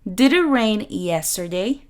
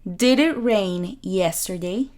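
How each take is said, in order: First: Did and it blend into one linked sound. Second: Did and it blend into one linked sound.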